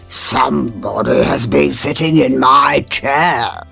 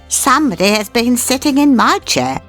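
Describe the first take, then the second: First: It is said in a deep, gruff voice. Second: It is said in a medium, middle voice.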